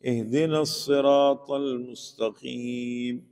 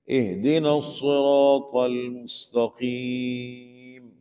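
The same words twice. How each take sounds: First: 'الصراط' with thin whistled S, slowly chanted; common misreading. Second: 'الصراط' with heavy, rounded S, slowly chanted; correct recitation. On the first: Teacher showing how people misread it, thin S. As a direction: flatten 'الصراط' into a plain light SEEN. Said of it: "کیا پڑھتے لوگ؟". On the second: Teacher reciting the verse correctly, slow heavy letters. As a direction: draw out 'الصراط' with full-mouthed emphatic S. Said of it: "صراط نہیں پڑھتے". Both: Shown as a demonstration.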